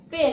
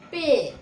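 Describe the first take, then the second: First: "पे" said the way not to say it; wrong pronunciation. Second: "पे" held long, falling at the end; long e vowel. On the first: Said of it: "पे नहीं". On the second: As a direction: stretch the e in "पे". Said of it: "लंबा खिंचता है". ("पे" को लंबा खींचकर) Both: Shown as a demonstration.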